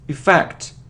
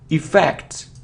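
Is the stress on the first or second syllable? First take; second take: second; second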